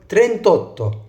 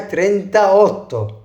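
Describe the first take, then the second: First: The parts are joined, dropping the middle vowel. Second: Both parts are said separately, keeping the vowel. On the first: The speaker calls it right. "انا قلت ترنتوتو" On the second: The speaker calls it wrong. "ما قلتش هنا ترنتا اوتو"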